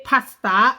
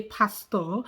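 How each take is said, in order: First: "pasta" with an open "ah" ending; pastor ending in ah. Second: "pastor" with a round "aw" ending; Nigerian pronunciation. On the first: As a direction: say "pasta" as "pas-tah", drawn out. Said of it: "you say pasta". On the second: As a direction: say "pastor" as "pas-taw", Nigerian style. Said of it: "and we say pastor". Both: Shown as a demonstration.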